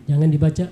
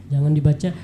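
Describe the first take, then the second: The two takes are said the same way.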